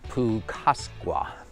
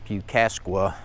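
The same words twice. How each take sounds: First: The vowels are said as 'oo' and 'aw'. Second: The vowels are not said as 'oo' and 'aw'. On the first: The speaker calls it right. "U is oo and A is aw" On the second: The speaker calls it wrong. "I earlier uh, pronounced this park name"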